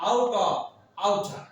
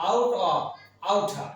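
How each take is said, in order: Both takes have the same delivery.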